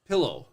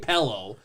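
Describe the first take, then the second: First: The first vowel sounds like the i in 'pill'. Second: The first vowel sounds like the e in 'pell'. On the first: "if I try to say it with an I" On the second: "I say pillow"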